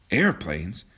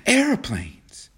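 First: AIRPLANES at an ordinary pitch, rising at the end; questioning echo. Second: AIRPLANES announced high, falling at the end; excited, high-pitched correction; excited exclamation. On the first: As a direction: echo the word as a puzzled question. Other character echoes it as question. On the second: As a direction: burst out with the news in high excitement. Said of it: "she interrupted excitedly". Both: A narrator's reading.

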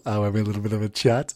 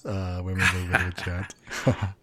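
First: Said in the usual way. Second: Dropped low and soft, muttered; quiet aside. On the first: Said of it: "first take of the line". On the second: Shown as a demonstration. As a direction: throw it away under the breath. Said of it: "repeats his own line".

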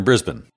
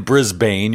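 First: "Brisbane" with a reduced ending, like "Briz-bn"; local Brisbane. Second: "Brisbane" with a long second syllable, like "Briz-bain"; spelled-out Brisbane. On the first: Host shows guest the local way, "Brisbane" said as "Briz-bun". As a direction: shorten the second syllable of "Brisbane" to "bun". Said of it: "you're in Brisbane". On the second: Host shows the outsider's mistake, "Brisbane" said as "Briz-bain". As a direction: say "Brisbane" to rhyme with "rain". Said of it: "you're not in Brisbane". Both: Shown as a demonstration.

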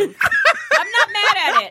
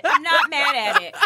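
First: Slow, laughing drawl. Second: Said in the usual way. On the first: Real, not acted. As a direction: laugh through it. Laughing, repeated.

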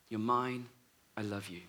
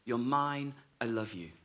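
First: Even softer, fading to a hush; tender voice dying away to a hush. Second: Soft, tender whisper of love. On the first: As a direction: let it fade almost to nothing. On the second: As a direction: say it gently, like a lover's promise. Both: Retold or imitated. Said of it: "the phrase that she heard the voice saying".

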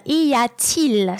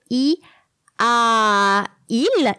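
First: "y a-t-il" drawn out slowly with a T linking a to il; added T. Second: "i a il" as separate vowel sounds, no T; no linking T. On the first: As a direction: bridge the vowels in "y a-t-il" with a T. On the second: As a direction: say "i", "a", "il" apart, without a T between. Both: Shown as a demonstration. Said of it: "you need to add the T".

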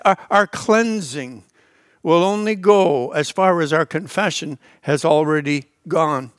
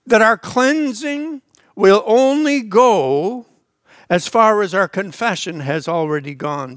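First: Slower and lower, pressing each word; slow repeated emphasis. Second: Slow, weighty, every word leaned on; slow emphatic teaching line. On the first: Preacher repeating his point, lower and deliberate. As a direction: repeat it slowly so it sinks in. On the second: Preacher to congregation, slow and weighty. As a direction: drive the key truth home slowly. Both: Shown as a demonstration. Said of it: "Did you see that?".

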